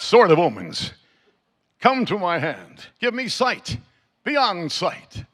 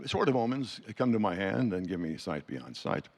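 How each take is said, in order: First: It is said in a dramatic heroic voice. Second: It is said in a casual talking voice.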